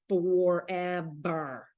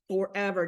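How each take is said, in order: First: "Forever" stretched very slowly and low; slow weary groaning "Forever"; drawn-out forever. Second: Said in the usual way. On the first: Retold or imitated. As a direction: drag "Forever" out long like it never ends. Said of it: "Danielle's like".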